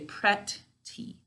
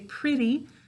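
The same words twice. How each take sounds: First: Each sound is said clearly and separately. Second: The sounds are relaxed and run together. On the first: This is the form used for spelling. "To spell it, we say pretty" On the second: This is the form used in normal speech. "We say pretty when we're talking"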